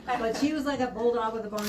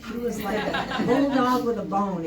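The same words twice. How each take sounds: First: Said in the usual way. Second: Laughing through the words; breaking into a laugh mid-sentence. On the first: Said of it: "Excuse the pun". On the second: Real, not acted. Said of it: "excuse me. Excuse the pun".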